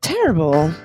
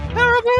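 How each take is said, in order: First: It is said like a secretive spy. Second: It is said like a grand opera diva.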